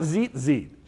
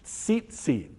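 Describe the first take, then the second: First: The word begins with a plain 'z' sound. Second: The word begins with a 'ts' sound. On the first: The speaker calls it wrong. "not zit zit" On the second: The speaker calls it right.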